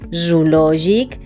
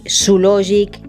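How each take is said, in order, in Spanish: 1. El sonido z es sonoro, con zumbido. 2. El sonido z es sordo, un siseo. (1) "la esa sonora" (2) "No decimos"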